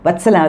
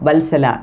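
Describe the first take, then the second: First: The first syllable ends with a T sound. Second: The first syllable ends with an L sound. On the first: This is how the name is said in Tamil Nadu. "விஏஎல்லுக்கு பதிலாக விஏடி தான் போடுவாங்க" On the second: This is how the name is said in Malayalam. "மலையாளத்தில் வல்சலா"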